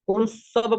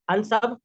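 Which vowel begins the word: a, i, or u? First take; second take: u; a. First: The word begins with a u vowel. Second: The word begins with an a vowel. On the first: "अगर हम पेश लगाते हैं ना" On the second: "तो हम जबर नहीं लगा सकते"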